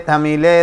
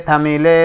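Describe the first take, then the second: Both takes have the same delivery.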